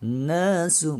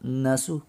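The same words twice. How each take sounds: First: The first vowel is lengthened and raised in pitch. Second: The first vowel is short with flat pitch. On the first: The speaker calls it right. "setiap kali ada alif ini maka harus di uh, cengkok satu ketukan, dinaikkan gitu" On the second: The speaker calls it wrong. "bukan nasu"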